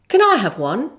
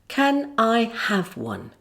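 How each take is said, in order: First: The question is quick, stressing I and one. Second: The question is said slowly with even weight. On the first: "say it quickly like this with the stress on the words I and one" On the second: "Say it slowly"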